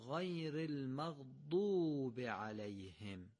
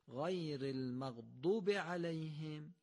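First: The vowel in maghdub is drawn out long. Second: The vowel in maghdub is short and rushed. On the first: The speaker calls it right. "قطعا دومی درسته" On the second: The speaker calls it wrong. "اگر این کشش او رو انجام ندیم"

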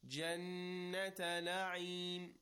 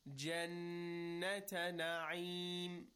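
Both takes have the same delivery.

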